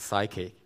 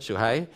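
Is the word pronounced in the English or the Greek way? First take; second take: English; Greek. First: It is said with an English pronunciation. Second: It is said with a Greek pronunciation. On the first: "I don't pronounce it as psyche" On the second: "it's a Greek pronunciation"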